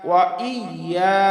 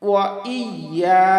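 The two takes are said the same way.

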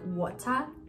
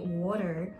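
First: It is said in a British accent. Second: It is said in a North American accent. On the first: "we would learn these words in British English" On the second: "here you would say water"

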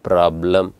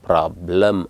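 No difference in how they are said.

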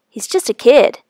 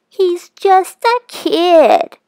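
First: It is said in a normal voice. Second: It is said in a high falsetto voice.

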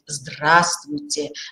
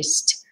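First: Every syllable of the greeting is said clearly. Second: The greeting is cut to one short syllable. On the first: It sincerely wishes the listener good health. The speaker calls it right. "фонетически, орфоэпически мы должны четко говорить" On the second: It is a careless, perfunctory greeting. The speaker calls it wrong. "или"

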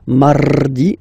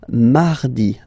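First: The R is rolled with the tongue. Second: The R is pronounced soft and light. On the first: The speaker calls it wrong. "You don't move your tongue, so it doesn't sound like mardi" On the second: The speaker calls it right. "It's really soft"

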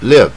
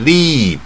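First: The vowel is short. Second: The vowel is long. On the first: The speaker calls it right. "这个也是短音，带耳的音live" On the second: The speaker calls it wrong. "一般人一定念成leave"

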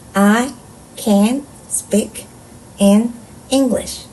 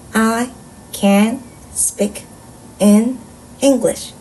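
First: Each word is read with a pause after it. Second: The same.

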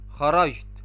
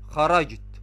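The two takes are said the same way.

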